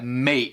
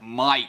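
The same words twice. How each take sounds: First: The vowel sounds like 'ay', American style. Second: The vowel sounds like 'eye', Australian style. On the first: "Isso seria mate no inglês americano" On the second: "ele tem esse som do A, que é I"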